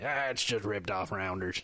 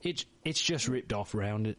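First: Put-on a failed British accent, dismissive; mock British scoff, badly done. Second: A second try at British that drifts Australian; lightly mock Australian twang; accidental Australian accent. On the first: Host mocking British debaters in a bad British accent. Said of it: "that was a terrible British accent". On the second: Host retrying the British line, lands Australian. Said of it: "Nope, that's Australian".

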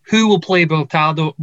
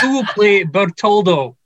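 First: Put-on fumbled Scottish accent, "Bertaldo" with an AL vowel; attempted Scottish accent. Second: Put-on second go at a Scottish accent, "Bertoldo" with a round OL; retry the Scottish accent with a clear O in "Bertoldo"; retried Scottish accent. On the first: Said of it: "I can't say that with a Scottish accent". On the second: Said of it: "Can I say that again?".

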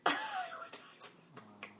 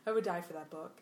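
First: Tiny, very soft squeak of a voice; faint, choked-up gushing; overcome gushing. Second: Said in the usual way. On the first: Pretend. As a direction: squeeze it out almost without voice. Overcome, repeats the line, voice gone.

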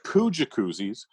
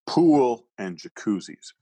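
First: Slow flat poo jacuzzis with poo stressed; deadpan the broken sign; punchline read. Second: Slow, deliberate pool and jacuzzis with pool stressed; slow sign reading. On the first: Comedian reading the broken sign to the host, deadpan and slow. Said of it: "So it said". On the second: Comedian reading the sign word by word, slow and deliberate. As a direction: read it out slowly like the sign. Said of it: "So they're telling you what they have". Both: Shown as a demonstration.

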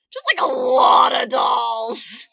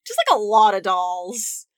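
First: Drawn out and shouted; yelling it again, slower; slow mock shout. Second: Said in the usual way. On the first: Shown as a demonstration. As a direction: belt the line out slow for effect. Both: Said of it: "repeated louder".

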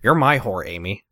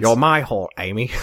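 First: Lightly done character voice in American accent; restrained American-accented imitation; Ben. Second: Low British character voice; British accent with dropped r's; Michael Caine. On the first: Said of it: "what Ben voice would sound like". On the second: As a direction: do a low British film-star impression. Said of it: "sound like with a British accent". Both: Shown as a demonstration.

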